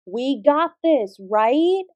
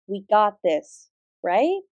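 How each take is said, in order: First: "We got this, right?" slower and a little louder, drawn out to rouse the room; louder rallying call. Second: Said in the usual way. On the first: Acted. Teacher repeating her rallying call to get more energy, louder and slower. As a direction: pump the class up this time. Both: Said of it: "We can do better than that".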